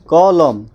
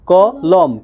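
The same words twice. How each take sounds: First: Said in the usual way. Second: কলম in two separate beats, ক... লম; split into syllables. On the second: Shown as a demonstration. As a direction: break কলম slowly after ক. (কলম দুইবারে ভেঙে, ক-লম) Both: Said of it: "দুইবারে উচ্চারিত হয়".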